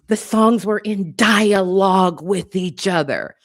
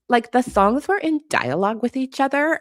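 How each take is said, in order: First: It is said in a flat, mundane tone. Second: It is said in a dramatic, incredulous tone.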